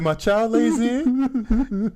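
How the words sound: It is read in a crying, tearful voice. The speaker calls it right. "You gotta cry. There you go"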